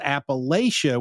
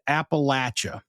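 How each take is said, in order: First: It is said the way outsiders to the region say it. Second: It is said the way the region's locals say it. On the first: The speaker is from outside the region. The speaker calls it wrong. "If someone says Appalachia, we immediately dismiss them as being Yankees and outsiders" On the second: The speaker is from the region. The speaker calls it right. "We pronounce it Appalachia"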